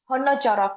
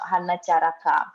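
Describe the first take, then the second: First: The vowels are rounded, closer to 'o'. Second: The vowels are open, a plain 'a'. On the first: The speaker calls it right. "it's Honna Charaka actually" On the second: The speaker calls it wrong. "It's not Hanna Charaka"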